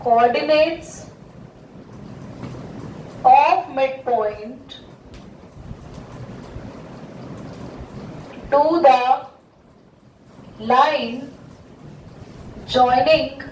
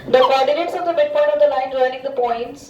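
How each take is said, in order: First: Drawn-out, word by word; slow demonstrative reading. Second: Deliberate, word by word; slow careful reading. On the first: Teacher shows the class how to read it, slowly. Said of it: "इसको पढ़ो". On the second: Teacher reads the question herself, slow and deliberate. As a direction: read it out slowly for the student. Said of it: "मैं ही पढ़ लेती हूँ बेटा". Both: Shown as a demonstration.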